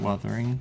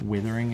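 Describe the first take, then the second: First: The first vowel is the 'u' of 'cut'. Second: The first vowel is the 'i' of 'with'. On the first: The speaker calls it right. "it's wuthering" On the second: The speaker calls it wrong. "It's not withering"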